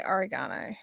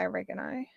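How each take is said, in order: First: Said in the usual way. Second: "oregano" stressed on the second syllable, REG; "oregano" with REG stressed and a short uh after it; American pronunciation. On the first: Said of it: "but no, I say oregano". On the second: Shown as a demonstration. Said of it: "I know Americans say oregano".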